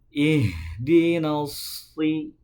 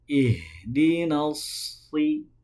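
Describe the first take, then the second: The two takes are said the same way.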